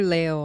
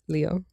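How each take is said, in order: First: The name is said with Spanish sounds. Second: The name is said with English sounds.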